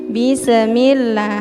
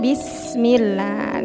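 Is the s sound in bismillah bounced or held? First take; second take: bounced; held. First: The s sound is clipped with a bounce. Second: The s sound is held steadily. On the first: The speaker calls it wrong. "bukan terseret tapi kayak dikolkolahkan ya" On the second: The speaker calls it right. "Tapi harus ditahan dulu"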